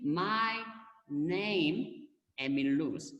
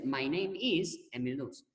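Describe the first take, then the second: First: "my", "name", "Emil Luz" set apart by pauses; "my ... name ... Emil Luz", each piece on its own; word-by-word gloss. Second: Said in the usual way. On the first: Shown as a demonstration. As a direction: spell out the meaning word by word, pausing after "my" and "name". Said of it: "So simply". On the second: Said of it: "And natural way to say".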